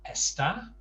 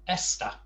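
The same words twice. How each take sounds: First: Está with TA stressed and higher; stress on last syllable. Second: Esta with ES stressed, then falling; stress on first syllable. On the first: Teacher showing two familiar words, está stressed on TA. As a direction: lift and lean on the final TA of está. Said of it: "make sure that we stress". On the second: Teacher showing two familiar words, esta stressed on ES. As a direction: hit ES at the start of esta. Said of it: "is the first syllable". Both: Shown as a demonstration.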